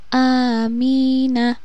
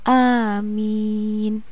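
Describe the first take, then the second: First: The word is said with its full ending. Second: The word is cut short at the end. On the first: The reader continues without stopping. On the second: The reader stops at the end of the verse.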